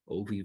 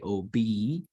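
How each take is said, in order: First: The middle consonant is a V sound. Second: The middle consonant is a B sound. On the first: This is the Hebrew pronunciation. "it gets pronounced as O V" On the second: This is the English pronunciation. "So in English, we could say O B"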